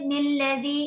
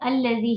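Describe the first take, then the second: First: The word begins with an n sound. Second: The word begins with a vowel. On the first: The speaker calls it wrong. "ऐसे करके नहीं पढ़ना है" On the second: The speaker calls it right. "अलग से साँस लेके पढ़ेंगी तब आप इसे अल्लज़ी ही पढ़ेंगी"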